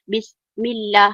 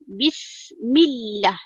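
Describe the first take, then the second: First: The doubled 'l' is said lightly, without emphasis. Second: The doubled 'l' is held with clear emphasis. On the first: The speaker calls it wrong. "Kita tidak baca Bismillah" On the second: The speaker calls it right. "Bila ada penekanan"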